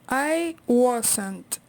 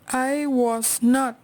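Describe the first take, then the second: First: Was and not are joined into one syllable. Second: Was and not are said as two full words.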